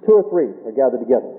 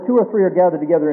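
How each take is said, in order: First: Weight on "Two or three", pitched low; emphasized point. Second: Said in the usual way. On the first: Shown as a demonstration. Preacher underlining a verse for the congregation, stress on "Two or three". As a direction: lean on "Two or three", then let the rest settle lower. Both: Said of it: "may I just emphasize this point".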